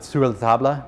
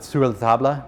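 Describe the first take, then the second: First: The name is said in a fancy, French-sounding way. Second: The same.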